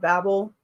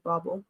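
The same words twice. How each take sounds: First: "Babel" with a short a, as in babble. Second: "Babel" with an open ah, BAH-bel. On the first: Reader explains how she thinks of the title, "Babel" with short a. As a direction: say "Babel" with first vowel as in cat. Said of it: "is how I think about it". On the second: Reader admits she likes the other version, "Babel" as BAH-bel. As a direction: say "Babel" with a long ah up front. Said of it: "say that with a French accent". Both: Shown as a demonstration.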